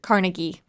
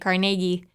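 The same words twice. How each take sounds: First: The stress is on the first syllable. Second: The stress is on the middle syllable.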